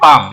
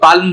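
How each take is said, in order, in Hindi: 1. l की आवाज़ छोड़ दी जाती है। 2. l की आवाज़ साफ़ बोली जाती है। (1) "आज हम इसको बोलते हैं" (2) "उस जमाने में इसको पाल्म बोलते होंगे"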